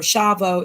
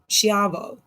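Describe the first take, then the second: First: No i sound is heard after the opening consonants. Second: An i sound is heard after the opening consonants.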